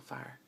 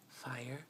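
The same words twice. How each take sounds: First: The word is said quickly and compressed. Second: The word is said slowly and fully.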